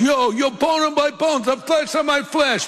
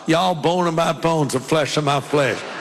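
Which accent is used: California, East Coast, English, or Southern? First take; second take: East Coast; Southern. First: It is said in an East Coast accent. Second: It is said in a Southern accent.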